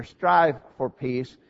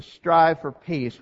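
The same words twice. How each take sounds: First: STRIVE drawn out and set apart, slowly; stress on STRIVE. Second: Said in the usual way. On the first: Shown as a demonstration. Preacher underlining the first word for the congregation, stress on STRIVE. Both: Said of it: "I want to emphasize the first word".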